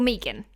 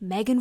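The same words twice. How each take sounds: First: The name is said the usual Australian way. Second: The name is said the usual non-Australian way.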